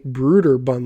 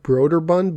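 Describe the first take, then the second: First: The first syllable sounds like 'brood'. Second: The first syllable does not sound like 'brood'. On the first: This is how it is supposed to be said. The speaker calls it right. "you're supposed to say Broderbund, like a brood" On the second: This is how most people say it. The speaker calls it wrong. "most people call it Broderbund"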